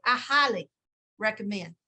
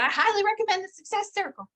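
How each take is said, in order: First: A light teasing echo of her earnest tone; imitating Suzanne. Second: Higher, louder, teasing copy of a friend's endorsement; imitating Suzanne. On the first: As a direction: playfully repeat her recommendation once more. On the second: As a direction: mimic her earnest recommendation playfully. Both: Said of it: "That's how she would say it too".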